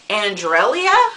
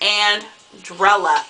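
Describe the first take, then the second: First: The name ends with an extra 'ee' sound: elia. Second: The name ends plainly with 'ella', no 'ee' sound. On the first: Someone else mispronounced the name. The speaker calls it wrong. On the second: This is how the owner says the name. The speaker calls it right.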